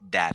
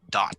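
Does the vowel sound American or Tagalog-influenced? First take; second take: Tagalog; American. First: The vowel sounds between an A and an E. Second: The vowel sounds between an A and an O. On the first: The speaker calls it wrong. "sort of like a love, the love child between an A and an E. So it sounds like that" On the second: The speaker calls it right. "if you want it to sound more American, you you make it the love child of an A and O"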